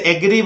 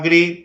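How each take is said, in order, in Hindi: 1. इस शब्द की शुरुआत 'eh' स्वर से होती है। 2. इस शब्द की शुरुआत 'uh' स्वर से होती है। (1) "कुछ लोग गलती से एग्री बोलते हैं जो गलत है" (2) "यहां बोलना है अग्री"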